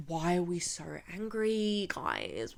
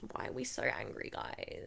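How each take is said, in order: First: Softer, sing-song mockery of the guards; mock patronizing question. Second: Much softer, nearly whispered mockery; hushed mock repeat. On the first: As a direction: tease them like upset kids, a bit softer. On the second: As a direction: fade the tease down to a breath. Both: Mocking the security guards.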